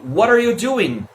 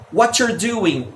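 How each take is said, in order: First: What are you merged as whaddarya; linked pronunciation. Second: What you're merged into whatcher, slow doing; reduced pronunciation. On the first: Teacher comparing forms, What are you run together. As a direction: link What are you, stretch doing. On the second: Teacher comparing forms, What you're reduced to whatcher. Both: Shown as a demonstration. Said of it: "muitas formas de se pronunciar".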